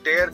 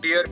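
First: The vowel sounds like 'air'. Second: The vowel sounds like 'ear'. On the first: "जब टेयर करते हैं तो इसका अर्थ होता है कोई चीज फाड़ना" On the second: "आप इसे टीयर पढ़ेंगे"

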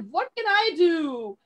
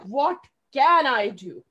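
First: It sounds helpless and defeated. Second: It sounds eager and determined.

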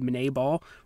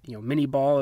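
First: The first word follows the inventor's French name. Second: The first word sounds like English 'mini'. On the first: This is the technically correct pronunciation. "I just guess it should technically be" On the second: This is the common popular pronunciation. "is what a lot of people pronounce it as"

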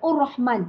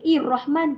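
First: The word begins with a u vowel. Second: The word begins with an i vowel. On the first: "Ustazah tak baca Ur-Rahman" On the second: "Ustazah tak baca Ir-Rahman"

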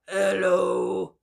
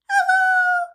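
First: It is said in a low voice. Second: It is said in a high voice.

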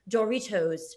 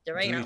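First: It is said in a fancy British accent. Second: It is said in her own plain accent.

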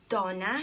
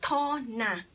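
First: The name begins with a D sound. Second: The name begins with a T sound. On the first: "ang letter ng name ko starts sa letter D" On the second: "yung letter D, it sounds letter T"

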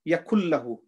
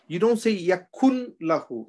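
First: The n merges into the l without nasalization. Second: The n sound is pronounced separately before the l. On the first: The speaker calls it right. "the one without kunna is here" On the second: The speaker calls it wrong. "You don't say yakun lahu. If you say yakun lahu, we are reading the noon"

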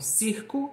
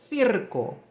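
First: The word begins with a plain s sound. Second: The word begins with a tongue-between-teeth th sound.

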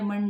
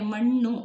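First: The word ends in an 'a' vowel. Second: The word ends in a 'u' vowel. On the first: This is the Dharwad regional form. "Dharwad ಕಡೆ ಮಣ್ಣ ಅಂತಾರೆ" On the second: This is the Mysore regional form. "ಮಣ್ಣು ಅಂತ ಮೈಸೂರಲ್ಲಿ ಅಂದರೆ"

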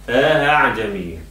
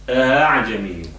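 The two takes are said the same way.

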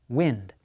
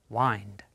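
First: The vowel is a short 'ih' sound. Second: The vowel is the 'eye' sound of time. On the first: It names a current of air. "the underlined word is a noun" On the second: It means to turn something around. "It is not acting like a verb, so it is not wind"

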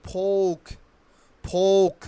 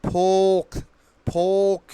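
No difference in how they are said.

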